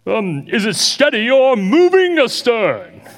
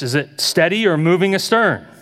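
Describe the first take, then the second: First: It is said in a put-on captain's voice. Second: It is said in the speaker's normal voice.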